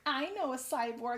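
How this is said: It is read in a put-on character voice. The speaker calls it right. "I'm gonna do the voice"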